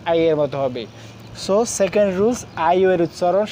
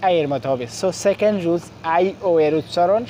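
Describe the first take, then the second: No difference in how they are said.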